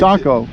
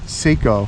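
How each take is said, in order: First: The first syllable has a short vowel. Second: The first syllable has a long vowel. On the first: The speaker calls it right. "what makes the A short?" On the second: The speaker calls it wrong. "The Rite Aid calls it Seiko"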